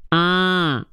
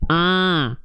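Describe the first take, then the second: First: The vowel sounds nasal, through the nose. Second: The vowel sounds nasal, through the nose.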